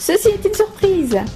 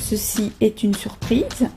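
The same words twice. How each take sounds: First: It is said as an excited exclamation. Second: It is said as a plain statement.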